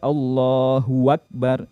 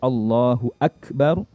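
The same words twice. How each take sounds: First: An extra wa sound comes before akbar. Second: Hu joins akbar with no added sound. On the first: The speaker calls it wrong. "itu keliru... menambahkan waw berharokat fathah" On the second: The speaker calls it right. "yang seharusnya di situ"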